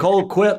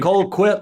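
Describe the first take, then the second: First: The second syllable sounds like 'quit'. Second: The same.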